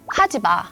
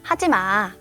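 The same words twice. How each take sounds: First: It is said in a firm, stern tone. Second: It is said in a gentle, soft tone.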